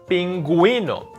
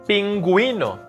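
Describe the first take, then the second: The two takes are said the same way.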